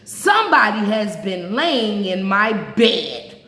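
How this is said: The voice is big, rough and gruff. The biggest bear is speaking. "in his great rough gruff voice"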